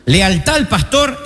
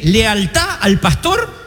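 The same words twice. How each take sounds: First: Said in the usual way. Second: Lealtad al pastor drawn out slowly, pastor rising; slow stressed phrase. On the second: Shown as a demonstration. Mocking the wrong teaching, slow and stressed.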